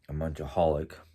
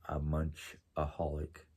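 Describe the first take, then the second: First: It is said at normal speed. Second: It is said more slowly.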